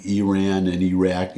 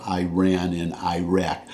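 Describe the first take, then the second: First: Iran and Iraq as ee-RAN, ee-RACK; careful pronunciation. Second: Iran and Iraq as eye-RAN, eye-RACK; Southern pronunciation. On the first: What few in the South say, Iran and Iraq with ee. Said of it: "that say". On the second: The common Southern way, Iran and Iraq with eye. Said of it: "instead of". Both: Shown as a demonstration.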